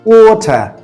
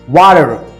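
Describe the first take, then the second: First: It is said in a British accent, r silent. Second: It is said in an American accent. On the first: "if a British person speaks same word, he'll say water" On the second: "if an American speaks, how he will speak? He will say water"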